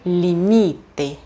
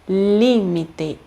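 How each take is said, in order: First: The stress is on the second-to-last syllable. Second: The stress is on the third-to-last syllable. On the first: The speaker calls it wrong. "e não" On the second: The speaker calls it right. "Outro caso de proparoxítona também"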